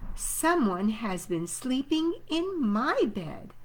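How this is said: It is said in a middle-sized voice.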